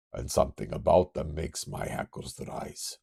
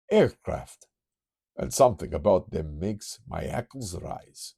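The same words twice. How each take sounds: First: Put-on retry it with a Russian accent. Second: Put-on Transylvanian accent. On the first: Kurt senses aircraft, Russian accent retake. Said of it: "Do I not have a Russian accent". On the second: Kurt senses aircraft, light Transylvanian accent. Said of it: "I can't help but go Transylvanian".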